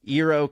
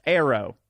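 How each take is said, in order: First: First syllable of Eero as "ear". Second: Eero corrected to start like "air"; first syllable of Eero as "air"; Eero pronounced "Arrow". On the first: Real, not acted. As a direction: read Eero with an "ee" start. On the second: Shown as a demonstration. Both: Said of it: "pronounced Arrow".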